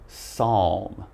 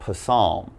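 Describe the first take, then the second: First: The word begins with an s sound. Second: The word begins with a p sound. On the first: The speaker calls it right. "we have a silent P, so just pronounce the S" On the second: The speaker calls it wrong. "It's not psalm"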